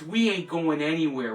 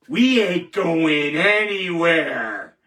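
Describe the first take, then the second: First: Said in the usual way. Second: Slow, loud, drawn-out declaration; defiant vow. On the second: Real, not acted. Host vowing to critics, slow and loud. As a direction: plant your feet and promise it slowly.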